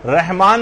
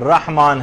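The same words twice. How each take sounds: First: رحمان said as "Rehmaan", with an e; wrong vowel. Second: رحمان said as "Rahmaan", with an open a; correct vowel. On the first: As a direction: flatten the first vowel of رحمان to "reh". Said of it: "نہیں ہے". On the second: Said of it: "رحمان ہے". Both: Shown as a demonstration.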